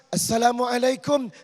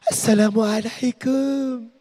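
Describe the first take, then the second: First: The greeting is said firmly and plainly. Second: The greeting is said softly and affectedly.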